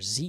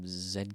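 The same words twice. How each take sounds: First: The letter is said as zee. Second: The letter is said as zed.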